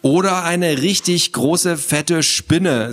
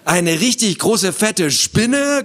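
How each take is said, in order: First: Slow, raised, ominous suggestion; teasing scare. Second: High, rising horrified echo; mock screech. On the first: Acted. Sister scares little brother with a spider, teasing. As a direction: draw it out to frighten him. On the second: Frightened boy repeats his sister's words, mock screech. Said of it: "kreischte Theo noch lauter".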